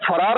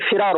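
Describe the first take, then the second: First: The first vowel is a short 'a'. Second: The first vowel is a short 'i'. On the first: The speaker calls it wrong. "लफ्ज फरार नहीं" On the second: The speaker calls it right. "बल्कि फिरार होता है"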